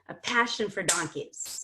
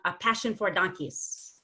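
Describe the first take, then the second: First: The word 'for' is weak and unstressed. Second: The word 'for' is as strong as other syllables.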